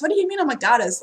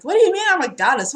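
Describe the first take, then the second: First: Milder disbelief. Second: Higher, louder, fast incredulous blurt; disbelieving. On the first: Reader repeats the goddess question, gently puzzled. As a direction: repeat it still puzzled but calmer. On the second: Reader recalls her guides calling her a goddess, fast disbelief. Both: Retold or imitated.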